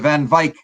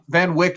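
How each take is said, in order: First: The name gets an attempted South African pronunciation. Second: The name gets a North American pronunciation. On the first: The speaker calls it right. "I'll try and say your last name the right way" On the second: The speaker calls it wrong. "is sort of how we say it here in North America"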